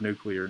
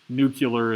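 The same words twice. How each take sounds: First: The word is said as 'nuclear'. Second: The word is said as 'nucular'. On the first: "of the word nuclear" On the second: "nuclear is an accepted pronunciation"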